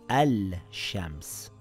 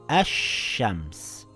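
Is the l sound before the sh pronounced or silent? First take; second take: pronounced; silent. First: The l is pronounced before the sh sound. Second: The l is silent and the sh is doubled. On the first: The speaker calls it wrong. "and not al-shams" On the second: The speaker calls it right. "We silent the lam and add a shadda on the sheen"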